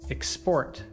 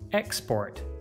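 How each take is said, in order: First: The stress is on the second syllable. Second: The stress is on the first syllable. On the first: It is used as a verb. "you should stress the second syllable" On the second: It is used as a noun. "you should stress the first"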